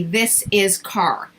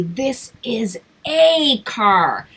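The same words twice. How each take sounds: First: Slow "This is car" with no article, each word spaced; imitating a child's mistake. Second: Slow "This is a car" with "a" drawn out and clear; stress on A. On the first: Student learner says it slowly without "a". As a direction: mimic a student dropping the little word. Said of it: "they're going to say". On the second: Shown as a demonstration. Teacher correcting a student, stressing a. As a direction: spell out the missing word a for the child. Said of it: "I will say".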